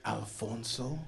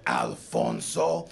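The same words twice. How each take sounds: First: Quiet, questioning jab at the name; lightly needling, rising at the end; mocking name-calling. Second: Very deep, drawn-out name; exaggerated macho bass, slow; mocking name pronunciation. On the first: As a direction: say the name softly as a pointed question. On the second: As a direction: taunt with the name in a huge low voice. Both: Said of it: "Why are you saying my name like that?".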